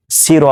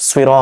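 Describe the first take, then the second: First: "সি র" with a thin plain see; "সি র" as see-ro, unrounded; wrong light s. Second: "সুই র" with a heavy rounded s; emphatic s with a w glide in "সুই র"; correct heavy sad. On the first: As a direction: show the error "সি র" with a light s. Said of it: "সি র হয় না". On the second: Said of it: "বরং সুই র". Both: Shown as a demonstration.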